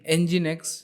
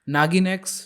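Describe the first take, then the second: First: The first part sounds like 'en-jin'. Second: The first part sounds like 'naa-gin'. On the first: The speaker calls it right. "एंजिन x इसको pronounce किया जाता है" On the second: The speaker calls it wrong. "नागिन x नहीं"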